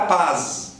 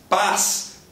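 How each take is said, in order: First: The word ends with a voiced Z sound. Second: The word ends with a voiceless S sound. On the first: The speaker calls it wrong. "se eu trocar este som por Z, eu sou estranho, esquisito e gringo" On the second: The speaker calls it right. "e acaba com S"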